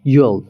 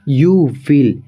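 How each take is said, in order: First: One contracted syllable: you'll. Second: Two full words: you, then will.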